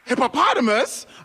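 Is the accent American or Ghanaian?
American. It is said in an American accent.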